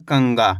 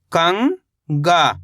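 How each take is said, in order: First: Said in the usual way. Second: कंगा as long rising "kang", pause, "gaa"; split syllables. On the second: Shown as a demonstration. Teacher breaking down कंगा for learners, split syllables. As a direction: stretch कंगा into two separate syllables. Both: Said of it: "तो मिलके बन जाएगा".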